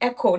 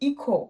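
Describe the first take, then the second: First: The first vowel sounds like 'eh'. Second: The first vowel sounds like 'ee'. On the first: The speaker calls it right. "Is এখো" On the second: The speaker calls it wrong. "Not ইকো"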